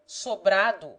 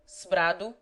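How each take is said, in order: First: The first vowel is pronounced fully. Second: The first vowel is dropped. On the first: This is how it is said in Brazil. "so pronounced in full in the latter country" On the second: This is how it is said in Portugal. "in Portugal they are commonly pronounced sbrado"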